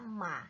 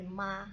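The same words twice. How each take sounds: First: It carries the tone of the word for horse. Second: It carries the tone of the word for mother. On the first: It means horse. "kuda dalam bahasa Mandarin bacanya adalah ma" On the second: It means mother. "dia nada bacanya beda tapi cara mengucapkannya sama"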